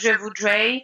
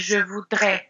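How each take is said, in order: First: The pitch moves up and down in a wavy melody. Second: The pitch stays flat with the weight at the end. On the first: The speaker calls it wrong. "instead of" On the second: The speaker calls it right. "you will have to say je voudrais. And it's very at the end"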